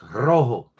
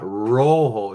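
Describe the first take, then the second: First: The word starts with a D-like tapped sound. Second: The word starts with an English R sound. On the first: The speaker calls it right. "It's a D" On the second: The speaker calls it wrong. "It's not an R"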